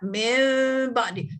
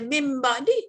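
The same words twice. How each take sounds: First: The nasal m sound is held for two beats. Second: The nasal m sound is cut short. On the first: The speaker calls it right. "kita kira dua harakat" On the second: The speaker calls it wrong. "Jangan baca mim ba'di, tak ada harakat tu"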